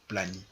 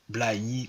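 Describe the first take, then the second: First: The word is said in a shortened form. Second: The word is said in its full form.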